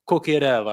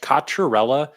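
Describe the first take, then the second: First: The name is said with a more Italian pronunciation. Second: The name is said with an Americanized English pronunciation. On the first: This is closer to how Italian relatives say it. The speaker calls it right. "a little closer to like" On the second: This is how the family usually says it. The speaker calls it wrong. "in like the broken Italian English. ... is how my family usually says it"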